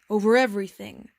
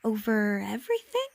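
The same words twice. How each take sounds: First: Loud, grandly simple statement; magnificent simplicity. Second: Mildly astonished, rising at the end; incredulous question. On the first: A narrator's reading. King answers the prince about his rule, magnificently simple. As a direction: pronounce it as absolute fact. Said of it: "said the king with magnificent simplicity". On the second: Acted. Little prince doubts the king's reach, incredulous. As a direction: repeat it as a wondering question.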